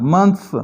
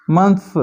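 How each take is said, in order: Both takes have the same delivery.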